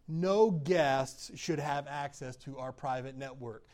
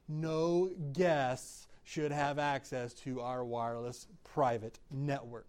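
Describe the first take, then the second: First: It is said at a normal speed. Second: It is said slowly and deliberately.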